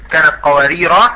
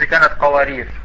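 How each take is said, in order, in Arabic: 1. تنتهي الكلمة الأخيرة بألف المد الطويلة. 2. تنتهي الكلمة الأخيرة بحرف الراء الساكن. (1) "إما بالوقف مراعاة للرسم" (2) "أو الوقف مراعاة لللفظ"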